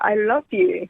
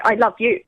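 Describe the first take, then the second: First: It is said with a clear, moving melody. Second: It is said flat, with little pitch movement. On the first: The speaker calls it right. "it's got a melody to it" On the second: The speaker calls it wrong. "You don't say I love you"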